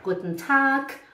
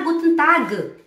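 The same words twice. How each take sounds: First: The final sound of Tag is a K. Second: The final sound of Tag is a G. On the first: The speaker calls it right. "é com som de K" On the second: The speaker calls it wrong. "Não é tag"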